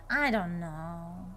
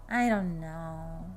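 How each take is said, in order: No difference in how they are said.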